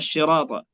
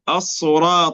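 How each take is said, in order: First: The word starts with an sh sound. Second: The word starts with an emphatic s sound.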